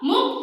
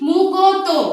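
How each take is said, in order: First: The k and t are joined in one cluster. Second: The k and t are split by a vowel. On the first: The speaker calls it right. "এটা আগে উচ্চারণ করো।" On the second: The speaker calls it wrong. "কেমন একটু শুনতে লাগছে না উচ্চারণটা?"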